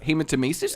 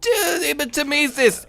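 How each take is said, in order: First: Hematomesis? said as "hee-ma-to-MEE-sis" with a questioning rise; retry Hematomesis at normal pitch, checking if it's right; unsure corrected Hematomesis, rising at the end. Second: Hematomesis said slow and high, sounded out as "ay-ma-to-MEE-sis"; hesitant high try at hematomesis; first try at hematomesis. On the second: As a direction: stretch hematomesis out carefully, pitched up, as an unsure first attempt. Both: Shown as a demonstration. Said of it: "Did I say it correctly?".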